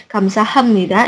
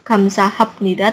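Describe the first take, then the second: First: "kamsahamnida" with M before -nida; "kamsahamnida" with the P softened into a nasal M; assimilated M sound. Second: "kamsahamnida" with a P before -nida, kamsahapnida; "kamsahamnida" sounded letter by letter, P not M; unassimilated P sound. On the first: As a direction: say "kamsahamnida" as kam-sa-ham-ni-da. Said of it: "ini juga mengalami perubahan suara". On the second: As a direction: say "kamsahamnida" slowly as kam-sa-hap-ni-da. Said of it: "bukan kap". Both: Shown as a demonstration.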